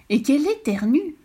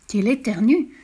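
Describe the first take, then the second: First: Higher and more lively repeat; rising excitement. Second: Said in the usual way. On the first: A narrator's reading. Narrator retells the sneezing, repeating it livelier. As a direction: build on the repeat.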